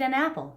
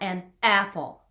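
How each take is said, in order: First: Vowels start softly and the words flow together. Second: Vowels start with sharp glottal catches between words. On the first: The speaker calls it right. "eat an apple" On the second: The speaker calls it wrong. "not an apple, right? That's hitting the vocal folds together"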